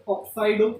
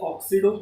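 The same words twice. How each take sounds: First: ऑक्साइडो with a long आइ sound, oxa-ee-do; ऑक्साइडो pronunciation. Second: ऑक्सीडो with a short ई sound, ok-see-do; ऑक्सीडो pronunciation. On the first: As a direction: say ऑक्साइडो clearly as oxaido, a touch louder. (ऑक्साइडो का उच्चारण, "आइ" खींचकर) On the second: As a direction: say ऑक्सीडो as the alternative form, oxido. (ऑक्सीडो का उच्चारण, छोटी "ई" के साथ) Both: Shown as a demonstration. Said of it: "ऑक्साइडो या ऑक्सीडो".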